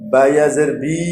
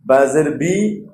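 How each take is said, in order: First: "বি" held long; stretched madd. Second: "বি" short, unstretched; short harakat. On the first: Teacher drilling madd with stretch, long "বি". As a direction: draw out the vowel of "বি". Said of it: "মদের হরফ টান দিয়ে উচ্চারণ". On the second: Teacher drilling harakat without stretch, short "বি". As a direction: cut the vowel of "বি" short. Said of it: "টান ছাড়া উচ্চারণ করতে হবে". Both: Shown as a demonstration.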